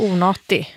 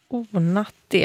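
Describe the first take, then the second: First: Onati as the alternative reading; second variant of onati. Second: Onati with the first syllable drawn out; first variant of onati. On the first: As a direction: say onati differently from the first reading. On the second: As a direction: say Onati as the first of two readings. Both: Shown as a demonstration. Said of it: "Onati eller onati".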